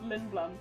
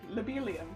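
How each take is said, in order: First: The name is said with two syllables. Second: The name is said with four syllables. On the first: This is the name's actual form. The speaker calls it right. "They are in fact called Lindblum" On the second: This is a childhood misreading of the name. The speaker calls it wrong. "we ended up with place names like Lobelium"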